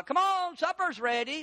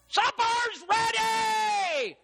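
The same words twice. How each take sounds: First: High, moderate call to the family; mama calling to supper. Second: High, long-drawn supper holler; mama yelling. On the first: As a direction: call them to the table without yelling yet. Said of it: "tell you why your mama yells". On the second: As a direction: yell it slowly through the whole house. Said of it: "Oh, Mama yelled". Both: Acted.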